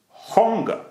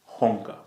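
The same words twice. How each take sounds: First: Hunger called out loud, jumping high in pitch; emphatic HUNGER. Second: Said in the usual way. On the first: Shown as a demonstration. Fan driving home his key word, Hunger said emphatically. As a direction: punch Hunger high and hard.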